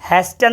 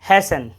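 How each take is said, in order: First: A t sound is pronounced in the middle. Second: No t sound is pronounced in the middle. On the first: The speaker calls it wrong. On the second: The speaker calls it right.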